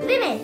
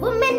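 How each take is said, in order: First: The first syllable sounds like 'wi'. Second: The first syllable sounds like 'woo'. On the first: The speaker calls it right. "हम इसे बोलेंगे विमेन" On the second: The speaker calls it wrong. "हम इसे वुमेन नहीं बोलेंगे"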